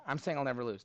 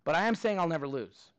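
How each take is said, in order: First: "saying" singled out in a softer, lower repeat; stress on SAYING. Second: "am" leaned on hard against "not saying"; stress on AM. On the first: Teacher repeats his tic-tac-toe boast to class, stress on "saying". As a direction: push "saying", keep the rest quiet and falling. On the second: Teacher to class, insisting he never loses, stress on "am". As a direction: land the weight on "am", then let "lose" fall. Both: Real, not acted. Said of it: "Now, I'm not saying I'll win".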